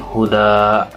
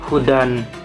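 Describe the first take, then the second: First: The word ends with a lengthened vowel, no n. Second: The word ends with an n sound. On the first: The reader stops on the word at the end. "dibaca menjadi seperti mertubi" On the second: The word is read without stopping on it. "asalnya dibaca hu hudan"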